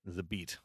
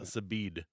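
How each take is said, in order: First: The name ends with a t sound. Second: The name ends with a d sound. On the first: The speaker calls it right. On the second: The speaker calls it wrong. "Not Zabid"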